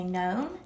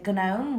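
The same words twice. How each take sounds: First: Said in the usual way. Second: Gnome said as g-nome with a hard g; wrong gnome, g-nome; g sounded. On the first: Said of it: "we say gnome". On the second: Shown as a demonstration. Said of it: "We don't say gnome".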